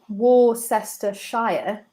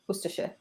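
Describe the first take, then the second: First: Every syllable is pronounced carefully in full. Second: Syllables are dropped, giving a short reduced form. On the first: The speaker calls it wrong. "instead of saying Worcestershire" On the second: The speaker calls it right. "you sort of give up halfway through and you go Worcestershire"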